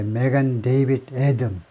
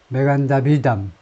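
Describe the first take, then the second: First: Three words are said separately and distinctly. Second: The words run together into one flowing name. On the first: "이렇게 또박또박 단어 세 단어를 읽는데" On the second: "이스라엘 쪽에서는 보니까 메간 다빗, 메간 다비담 이렇게 읽어요"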